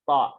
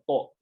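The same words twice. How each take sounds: First: The vowel is open without rounded lips. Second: The vowel is rounded with pursed lips. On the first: The speaker calls it right. "huruf to juga sama" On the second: The speaker calls it wrong. "Jadi bukan to"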